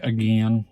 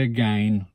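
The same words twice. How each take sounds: First: Again rhyming with "pen"; own pronunciation. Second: Again rhyming with "gain"; rejected pronunciation. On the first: Speaker showing their own way, again as uh-GEN. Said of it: "I say again". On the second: Speaker showing what they don't say, again as uh-GAYN. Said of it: "I don't say again". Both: Shown as a demonstration.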